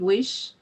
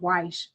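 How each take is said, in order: First: The name is said with a short 'i' vowel. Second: The name is said with an 'ay' vowel. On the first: The speaker calls it right. "Weish is pronounced Wish" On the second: The speaker calls it wrong. "I was calling him Weish"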